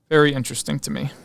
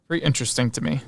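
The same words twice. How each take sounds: The two takes are said the same way.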